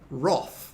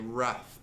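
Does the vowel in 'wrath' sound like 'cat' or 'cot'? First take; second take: cot; cat. First: The vowel sounds like the one in 'cot'. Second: The vowel sounds like the one in 'cat'. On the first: This is the traditional British form. "the traditional British pronunciation of wrath is Roth" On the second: This form follows the spelling. "it makes more sense to us to say wrath because of the way it's spelt"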